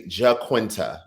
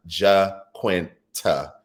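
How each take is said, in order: First: Said in the usual way. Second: Jaquinta very slowly, as ja, kwin, ta; syllable by syllable. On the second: Shown as a demonstration. Correcting herself on a viewer's name, syllable by syllable. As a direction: sound out Jaquinta with a pause between each syllable. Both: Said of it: "it's pronounced".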